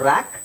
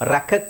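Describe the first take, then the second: First: The k sound is pronounced once. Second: The k sound is pronounced twice. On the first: The speaker calls it right. "ಒಂದೇ ಕ್" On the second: The speaker calls it wrong. "ಎರಡು ಸಲ ಕ ರ್ಯಾಕಕ್ ಅಂತ ಹೇಳೋ ಅವಶ್ಯಕತೆ ಇಲ್ಲ"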